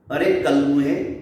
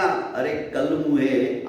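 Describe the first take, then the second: First: Angry curse. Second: "अरे कलमुहे" dragged out slowly with a falling tune; slow angry curse. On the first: Chaudharani curses Dagdu at her door, rising and sharp. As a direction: fling "अरे कलमुहे" at him with a rising snap. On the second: Chaudharani curses Dagdu on her housewarming day, slow and heavy. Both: Acted.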